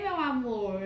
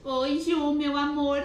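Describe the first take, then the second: First: Said in the usual way. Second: High, loud, gushing hello to a friend; sweet high greeting. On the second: Real, not acted. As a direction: gush over a friend arriving. Greeting friend joining live.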